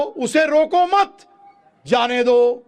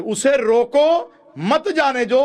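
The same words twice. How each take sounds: First: Slow, high "उसे रोको मत", pause, loud drawn-out "जाने दो"; pause after मत. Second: Slow, high "उसे रोको", then loud "मत जाने दो"; pause after रोको. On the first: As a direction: join मत to रोको, then release "जाने दो". ("रोको मत" जोड़कर, रुककर "जाने दो") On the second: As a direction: split before मत so it forbids going. ("उसे रोको" पर रुककर "मत जाने दो") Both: Shown as a demonstration. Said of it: "बिल्कुल विपरीत अर्थ".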